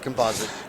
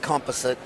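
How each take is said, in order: First: It is said with an American pronunciation. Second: It is said with a Canadian pronunciation. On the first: "but in America it's composite" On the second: "in Canada it's composite"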